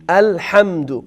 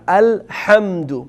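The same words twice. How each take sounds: Both takes have the same delivery.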